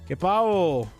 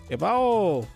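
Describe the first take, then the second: First: The second word is said with an h-like sound. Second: The same.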